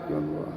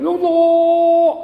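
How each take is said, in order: First: It is said softly. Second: It is said loudly.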